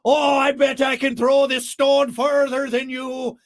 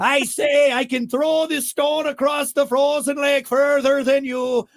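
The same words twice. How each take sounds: First: Slow, loud, high Irish-leaning brogue; botched Scottish boast that comes out Irish; Irish-sounding Scotsman. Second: High, loud, slow mock Scottish brogue; drunk Scotsman. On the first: Acted. Drunk Scotsman challenging another to throw stones, in a stray Irish accent. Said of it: "That was more Irish". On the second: Drunk Scotsman daring a rival on the frozen lake, mock Scottish brogue. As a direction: bellow a second go at a Scottish accent. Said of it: "one drunk Scotsman said to another drunk Scotsman".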